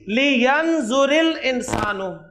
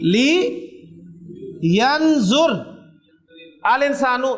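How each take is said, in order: First: Yanzur is joined to al with an 'i' vowel. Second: Yanzur ends without a vowel before al.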